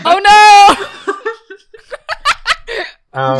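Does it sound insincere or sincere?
sincere. It sounds genuinely upset and sincere.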